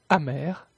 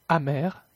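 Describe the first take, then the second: No difference in how they are said.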